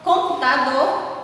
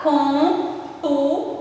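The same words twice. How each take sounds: First: Said in the usual way. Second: "computador" broken into com, pu, ta, dor; syllable by syllable. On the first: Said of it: "quatro sílabas". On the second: Shown as a demonstration. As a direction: pause after each syllable of "computador". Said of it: "separar as sílabas". ("computador" separado em sílabas, com pausas)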